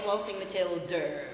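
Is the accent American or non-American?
American. It is said with an American accent. The speaker calls it right. "we say Waltzing Matilda"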